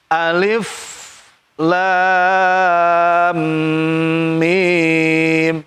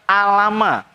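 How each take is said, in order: First: Each letter is said separately by its full name. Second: The letters are blended into one short word. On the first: The speaker calls it right. "dibaca sebagaimana huruf aslinya" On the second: The speaker calls it wrong. "Kalau dirangkai nanti bisa baca alama"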